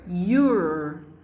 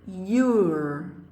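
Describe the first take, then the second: Both takes have the same delivery.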